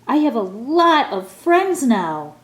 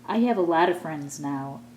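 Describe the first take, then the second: First: It is said very loudly. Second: It is said at a normal, soft volume.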